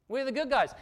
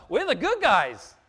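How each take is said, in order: First: Said in the usual way. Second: Slow and loud, leaning on good; loud declaration. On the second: Real, not acted. Preacher to his congregation, a slow loud proclamation. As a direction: proclaim it to the room, slow and strong.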